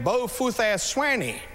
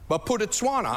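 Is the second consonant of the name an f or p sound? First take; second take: f sound; p sound. First: The name has an f sound after the first syllable. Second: The name has a p sound after the first syllable. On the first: The speaker calls it wrong. "the missions professor called it everything" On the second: The speaker calls it right. "And that's how you pronounce it"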